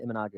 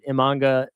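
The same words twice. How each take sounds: First: Imanaga said in full, four syllables, im-uh-NAH-ga; self-correction, Imanaga spelled out in sound; corrected name. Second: Imanga said clipped to three syllables, im-AHN-ga; hurried slip, Imanga with the middle syllable dropped; misspoken name. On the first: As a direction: carefully correct yourself, Imanaga with every syllable. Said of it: "excuse me". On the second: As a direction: slur the name Imanga short, missing a syllable. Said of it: "Imanaga, excuse me". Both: Real, not acted.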